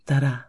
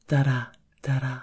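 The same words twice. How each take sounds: First: Steady "Da-da" in an even heartbeat beat; heartbeat rhythm. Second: "da-da, da-da" chanted faster like a racing pulse; quickening heartbeat. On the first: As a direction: tap out one calm heartbeat. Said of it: "A heartbeat". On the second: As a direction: speed up with the pulse. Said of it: "The increase in speed". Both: Acted.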